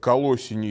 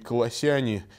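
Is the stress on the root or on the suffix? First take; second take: root; suffix. First: The stress falls on the root vowel o. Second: The stress falls on the suffix -yane. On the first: It follows the stress of the city name. The speaker calls it wrong. "там ударение на О" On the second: It follows church tradition. The speaker calls it right. "традиция требует ставить ударение на суффиксы «ан» и «ян»"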